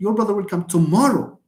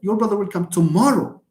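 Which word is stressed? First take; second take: tomorrow; tomorrow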